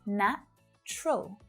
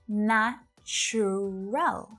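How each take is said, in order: First: The word is reduced to two syllables. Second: The word is said with three full syllables. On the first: "reduce the pronunciation of this word down to just two syllables" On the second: "It looks like there should be three"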